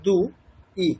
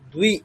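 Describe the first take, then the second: First: The two parts are said separately with a break. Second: The two parts are blended into one syllable.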